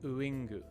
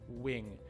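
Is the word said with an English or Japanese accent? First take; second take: Japanese; English. First: Said with a Japanese accent and extra vowels. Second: Said with a natural English strong W sound. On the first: The speaker calls it wrong. "So that's the Japanese" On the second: The speaker calls it right. "if I want to say w, wing, my mouth almost completely closes"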